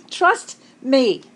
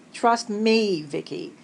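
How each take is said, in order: First: Louder, insistent "Trust me"; emphatic. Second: Said in the usual way. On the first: Real, not acted. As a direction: lean hard into "Trust". Promising funny stories.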